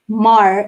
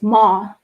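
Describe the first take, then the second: First: The final r is pronounced, Philippine style. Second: The final r is dropped, British style.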